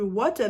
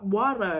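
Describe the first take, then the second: First: The middle sound is a clear, crisp t. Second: The middle sound is soft and r-like. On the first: The speaker calls it right. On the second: The speaker calls it wrong.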